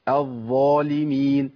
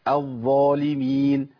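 The two takes are said the same way.

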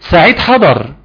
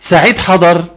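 First: It is said with a statement intonation. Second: It is said with a questioning intonation. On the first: The speaker is reporting that the person has arrived. "دي بصيغه الاخبار" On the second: The speaker is asking whether the person has arrived. "ايه الانطباع اللي جالك هنا عند السؤال"

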